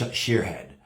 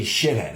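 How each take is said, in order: First: Sheerhead said with a long ee and an r, the way it was misspelled; mock the misspelling sheerhead, slightly lower; misspelled version. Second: Shithead said the right way, shit plus head; correct spelling. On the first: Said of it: "not sh-, sheerhead". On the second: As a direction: say shithead, the intended word. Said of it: "It's supposed to be shithead". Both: Shown as a demonstration.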